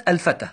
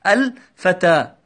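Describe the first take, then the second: First: Said in the usual way. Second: "الفتى" drawn out slowly, every sound clear; slow clear example word. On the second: Shown as a demonstration. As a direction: say "الفتى" slowly so the class hears it. (نطق "الفتى" ببطء ووضوح) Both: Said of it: "ووضعنا مكانها كلمة".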